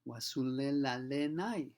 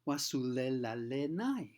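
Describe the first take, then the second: First: The consonants sound like a clear L. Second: The same.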